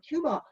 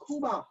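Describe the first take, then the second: First: Cuba said as KYOO-ba; English pronunciation. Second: Cuba said the Spanish way, as KOO-ba; Spanish pronunciation. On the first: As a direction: say Cuba with a y-glide before the oo. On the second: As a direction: say Cuba with a plain oo, no y sound. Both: Shown as a demonstration. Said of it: "as we say".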